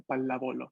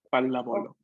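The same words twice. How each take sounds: First: "palábolo" with the stress on "lá"; stress on the second syllable. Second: "palábolo" repeated with the stress on "lá"; stress on the second syllable. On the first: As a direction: lean on "lá" in "palábolo", clear and careful. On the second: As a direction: model "palábolo" again, weight on "lá". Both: Shown as a demonstration. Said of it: "el acento en la segunda".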